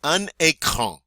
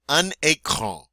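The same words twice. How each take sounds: First: "Un écran" said clearly at normal pace; French model word. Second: "Un écran" repeated slowly and clearly; slow French repeat. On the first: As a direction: say "Un écran" with a nasal "un". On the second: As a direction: stretch out "Un écran" slowly for learners. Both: Shown as a demonstration. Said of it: "You try it".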